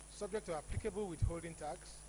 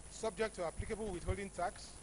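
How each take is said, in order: No difference in how they are said.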